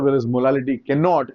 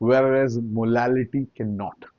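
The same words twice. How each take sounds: First: It is spoken at a fairly fast pace. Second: It is spoken at a slow pace. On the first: The speaker calls it wrong. "थोड़ा fast हो गया था" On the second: The speaker calls it right. "मैं आपसे धीरे बोल देता हूं"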